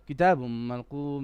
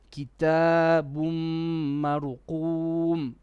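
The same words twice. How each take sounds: First: It is read fast and hurried. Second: It is read slowly with longer words.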